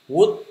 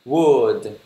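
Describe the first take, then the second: First: "Wood" high, short and rising, like Vietnamese "wút"; common mispronunciation. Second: "Wood" louder, with a lengthened vowel and voiced d; correct pronunciation. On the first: Teacher tests how people usually read it, "Wood" mispronounced high and rising. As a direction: clip "Wood" short with a sharp upward tone. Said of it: "Mọi người hay đọc là wood đúng không?". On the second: Teacher corrects the usual reading, "Wood" long with clear final d. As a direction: draw out "Wood" and let the final d sound. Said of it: "nó không có đúng được". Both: Shown as a demonstration.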